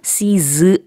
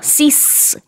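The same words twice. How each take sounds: First: The final s sound is soft and weak. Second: The final s sound is strong and hissing. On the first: The speaker calls it wrong. "발음이 cease 아니고요" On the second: The speaker calls it right. "이렇게 좀 강한 S 발음을 뒤에다 해주셔야 돼요"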